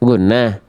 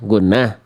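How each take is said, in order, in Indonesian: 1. Nadanya naik di akhir seperti pertanyaan. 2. Nadanya naik di akhir seperti pertanyaan.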